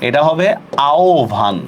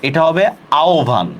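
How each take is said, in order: The two takes are said the same way.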